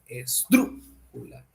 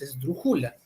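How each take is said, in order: First: The stress falls on the antepenultimate syllable. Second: The stress falls on the penultimate syllable. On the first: The speaker calls it right. "es la antepenúltima" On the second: The speaker calls it wrong. "tampoco es la penúltima"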